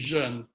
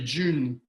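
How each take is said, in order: First: It is said with a French vowel sound. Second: It sounds like the English word June. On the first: The speaker calls it right. "but it's actually jeune" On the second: The speaker calls it wrong. "A lot of people say June"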